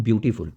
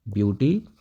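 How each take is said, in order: First: Said in the usual way. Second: ब्यूटीफुल drawn apart, long pause before the last syllable फुल; broken into syllables. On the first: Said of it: "जैसे मैं बात करूँ ब्यूटीफुल". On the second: Shown as a demonstration. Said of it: "आप एक बार बी बोल रहे हो".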